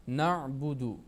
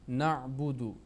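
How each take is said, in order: No difference in how they are said.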